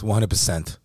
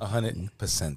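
First: It is said in the speaker's ordinary accent. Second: It is said in a put-on Italian accent.

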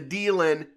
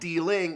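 First: The final g sound is dropped. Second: The final g sound is pronounced.

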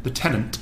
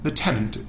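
The two takes are said the same way.

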